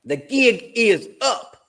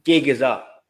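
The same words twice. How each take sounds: First: Put-on much higher and very slow, stretched out in Matty's accent. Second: Put-on a quick first stab at Matty's accent, a bit louder. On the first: Streamer hams up Matty the Southern Gooner's catchphrase, slow and high. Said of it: "as he would say it". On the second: Streamer quoting Matty the Southern Gooner, in his accent. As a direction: toss out the catchphrase in Matty's accent. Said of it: "Or as Matty the Southern Gooner would say".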